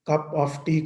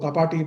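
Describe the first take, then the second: First: Each word is said fully and separately. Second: The 'of' is reduced and joined to 'cup'.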